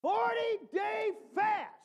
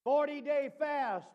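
First: Hammered emphasis on fast; big emphasis. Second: Forty-day fast said slow, barely raised; slow, measured forty-day fast; restrained repeat; lighter emphasis. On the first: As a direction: stretch out forty-day fast in awe. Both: Shown as a demonstration.

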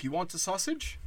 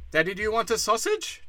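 First: High, soft, sugary hosting voice, lighter than the next take; a gentle, coaxing offer of food; mock friendly offer. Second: Mock eager offer. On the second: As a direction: push the offer up high and eager. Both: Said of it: "We've always been like".

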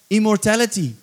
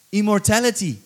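Both takes have the same delivery.

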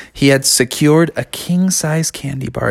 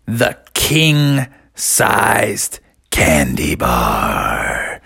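First: Said in the usual way. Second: Much lower and very slow; storyteller drops low to savour the name; dramatic reveal. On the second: A narrator's reading. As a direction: unveil the treasure in an awed deep voice.

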